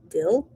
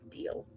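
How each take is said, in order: First: The vowel is a short i sound. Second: The vowel is a long ee sound. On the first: The speaker calls it wrong. "D I L L" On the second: The speaker calls it right. "It's a deal. D E A L"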